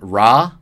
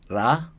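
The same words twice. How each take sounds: First: The consonant is a plain English r sound. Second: The consonant has a slight l-like sound. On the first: The speaker calls it wrong. "ra isn't ra" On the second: The speaker calls it right. "like with a little bit of an L sound at the beginning"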